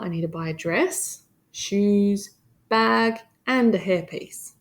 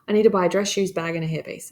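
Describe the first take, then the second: First: Short pauses separate each item in the list. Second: The items run together without any pauses. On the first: The speaker calls it right. "that's how you would say it to your friend" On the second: The speaker calls it wrong. "You don't just blurt it all out. It's just messy"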